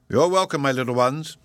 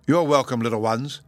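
First: Lightly voiced jolly old professor, raised; beaming welcome, a hint of an old man; cheery Professor. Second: Lightly voiced cheery professor, raised; a welcome from a beaming old man. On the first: Jolly professor greeting the children, lightly voiced. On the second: Professor welcoming the children, cheery and light. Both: A narrator's reading. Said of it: "the cheery voice repeated".

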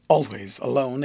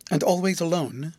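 First: "Always" stressed, "alone" settling as a statement; answering. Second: "alone" lifted into a rising question. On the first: Guardian confirming he lives alone, answering. Answer echoing Rosa's question. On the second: Rosa asking whether he lives always alone, questioning. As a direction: ask it, tune climbing on "alone". Rosa asks, guardian echoes as answer. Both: A narrator's reading.

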